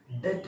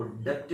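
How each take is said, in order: First: डेट with silent b; correct pronunciation. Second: डेब्ट with the b sounded; wrong pronunciation. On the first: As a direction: say "det", one syllable, no b. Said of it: "इस word को डेट बोलेंगे". (डेट का सही उच्चारण, "ब" मौन) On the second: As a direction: put an audible b-p before the t. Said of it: "नहीं है". (डेब्ट का गलत उच्चारण, "ब" सुनाते हुए) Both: Shown as a demonstration.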